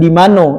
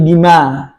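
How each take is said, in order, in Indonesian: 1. Kata itu diucapkan utuh, berakhir dengan -no. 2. Kata itu dipotong setelah suku kata pertama. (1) "Bukan di mano" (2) "seringkali diputus tuh"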